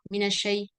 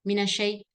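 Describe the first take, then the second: The two takes are said the same way.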